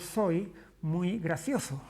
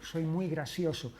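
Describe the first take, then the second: First: Every s and c is said as th. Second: Every s and c is said as s. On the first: "el ceceo consiste en decir" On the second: "Eso es seseo"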